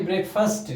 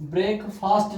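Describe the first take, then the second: First: ब्रेकफास्ट with a short uh sound, fəst, not fast; right pronunciation. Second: ब्रेकफास्ट said with a long a, as fast; the wrong ब्रेकफास्ट, ending like fast; wrong pronunciation. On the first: Teacher corrects students: ब्रेकफास्ट with short uh vowel. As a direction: correct ब्रेकफास्ट, second half like first. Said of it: "फर्स्ट की ध्वनि निकलेगी". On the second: Teacher shows students the wrong ब्रेकफास्ट, long a as in fast. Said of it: "ब्रेकफास्ट नहीं". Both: Shown as a demonstration.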